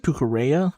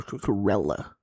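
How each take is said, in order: First: Cucurella as "koo-koo-RAY-uh"; Cucurella with Y sound. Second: Cucurella as "koo-koo-REL-uh"; Cucurella with L sound. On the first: Commentator still unsure of the name, Cucurella with a Y sound. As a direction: turn the double L of Cucurella into a Y. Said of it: "it's not a Y sound". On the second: Commentator offering the other option, Cucurella with an L sound. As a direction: keep a plain L in Cucurella. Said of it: "it's just a L sound". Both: Shown as a demonstration.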